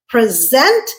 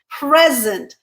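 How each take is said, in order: First: The stress is on the second syllable. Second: The stress is on the first syllable. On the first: It is a verb meaning to give or show. "second syllable stressed, verb" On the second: It is a noun meaning a gift. "first syllable stressed, noun"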